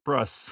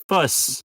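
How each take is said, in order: First: It is said with an R after the F. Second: It is said without an R after the F. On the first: The speaker calls it right. "and it's frus" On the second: The speaker calls it wrong. "you said fuss"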